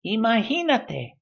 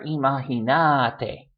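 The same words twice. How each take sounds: First: "Imagínate" as i-ma-GÍ-na-te, GÍ like "hee"; stress on GÍ. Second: "imagínate" as i-ma-gi-NÁ-te; stress on NA. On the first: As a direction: lift the GÍ of "Imagínate". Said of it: "stressed where that accent mark is". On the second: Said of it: "maybe if you speak with vos". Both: Shown as a demonstration.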